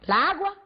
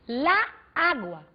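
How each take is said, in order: First: The two a sounds merge into one. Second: The two a sounds are said separately. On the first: "na velocidade da fala" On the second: "eu vou ter lá, água"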